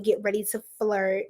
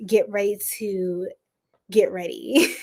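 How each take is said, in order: First: Said in the usual way. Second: A flirty hushed whisper. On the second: Acted. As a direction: drop to a playful whisper on get ready. Repeated 'get ready', whispered.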